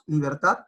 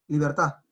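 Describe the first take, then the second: First: The word ends with a clear final d. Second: The word ends on the a, without d. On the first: "cuando nosotros decimos libertad" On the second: "por una cuestión de pronunciación rápida dicen libertad, con A"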